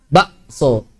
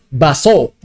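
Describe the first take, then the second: First: "Bakso" broken by a throat catch, ba'-so; k as glottal stop. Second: "baso" said smoothly with no catch; k dropped. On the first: Teacher showing Javanese speech, glottal stop. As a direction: cut "Bakso" with a silent catch after ba. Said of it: "Diibdal jadi hamzah kan". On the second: Teacher showing majority Indonesian speech, k dropped. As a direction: run ba straight into so in "baso". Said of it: "Orang Indonesia kebanyakan hadzaf". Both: Shown as a demonstration.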